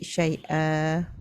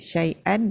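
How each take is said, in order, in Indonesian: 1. Kata itu berakhir dengan vokal biasa. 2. Kata itu berakhir dengan bunyi n. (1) "Dia jadi bunyi baris atas saja" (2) "Bunyi nun mati kan? An"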